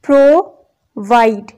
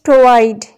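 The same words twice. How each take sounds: First: Provide split into "pro", "vide"; syllable by syllable. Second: Said in the usual way. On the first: Shown as a demonstration. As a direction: pause between the two syllables of provide. (provide کو دو الگ حصوں میں، ٹھہر کر) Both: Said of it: "two number of syllables".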